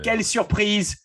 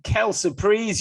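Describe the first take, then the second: First: It is said with a French accent. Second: It is said with an English accent.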